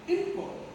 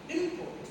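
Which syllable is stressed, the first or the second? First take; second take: first; first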